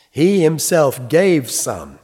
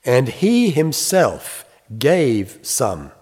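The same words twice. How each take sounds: First: "He himself" punched higher and louder, slow; very emphatic. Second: Slow, weighty stress on he; emphatic reading. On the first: Preacher driving home Paul's point to the congregation, emphatic and slow. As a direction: hammer "He" and "himself" home, slowly. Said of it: "Very emphatic". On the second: Preacher reading Ephesians to the congregation, slow and weighty. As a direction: read "he himself gave some" slowly, leaning on "he". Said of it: "It's emphatic in the English". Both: Shown as a demonstration.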